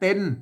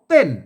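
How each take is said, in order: First: The word is said with the mid tone. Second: The word is said with the tho tone. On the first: "เสียงสามัญนะครับ" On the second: "ใส่ไม่โท"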